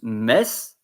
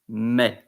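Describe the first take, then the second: First: The final s is pronounced. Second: The final s is silent. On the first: The speaker calls it wrong. "You don't pronounce mes" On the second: The speaker calls it right. "you pronounce me"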